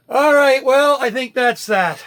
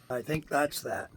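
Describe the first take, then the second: First: High, loud, drawn-out announcement; loud wrap-up. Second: Said in the usual way. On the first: Real, not acted. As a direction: call it out big and slow. Loud sign-off, then repeated softly.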